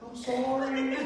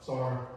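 First: It is said in a sweet, nice tone. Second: It is said curtly, without feeling.

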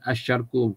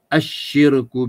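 First: The vowel after the sh sound is a. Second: The vowel after the sh sound is i. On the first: The speaker calls it wrong. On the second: The speaker calls it right.

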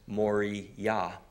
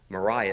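First: The ending is a clear 'yah' sound. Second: The ending is not a clear 'yah' sound. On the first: The speaker calls it right. "it's pronounced Moriah" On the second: The speaker calls it wrong. "actually it's not pronounced Moriah"

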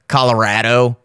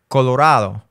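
First: The name is pronounced with anglicized vowels. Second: The name is pronounced with Spanish-style vowels. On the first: The speaker calls it wrong. "You wouldn't say" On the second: The speaker calls it right. "in Spanish, you would say"

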